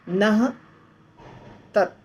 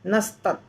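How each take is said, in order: First: The two words are said apart with an h sound. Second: The two words are joined with an s sound. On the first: "नह में जो विसर्ग है" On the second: "तो वो हो गया नस्तत्"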